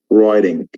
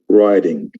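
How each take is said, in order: First: It is said in an American accent. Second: The same.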